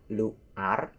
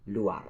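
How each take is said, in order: First: Luar broken into two pieces, lu, ar; wrong pronunciation. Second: Luar run together as one smooth word, lu-ar; correct pronunciation. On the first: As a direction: say luar split as "lu... ar". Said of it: "So that's not luar". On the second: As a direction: say luar joined, without a gap. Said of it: "not luar, but luar". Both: Shown as a demonstration.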